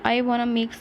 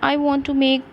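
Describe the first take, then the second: First: Want to is reduced to a single word, wanna. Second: Want to is said as two full words. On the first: It is informal spoken English. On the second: It suits formal conversation.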